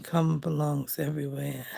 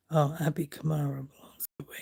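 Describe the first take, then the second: First: Said in the usual way. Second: Fast whispered reading of a caption; puzzled whisper. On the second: Real, not acted. Whispering a confusing magazine caption to viewers, puzzled. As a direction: hush it out quickly, puzzled.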